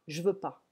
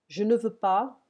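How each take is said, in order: First: The word 'ne' is dropped entirely. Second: The word 'ne' is clearly pronounced.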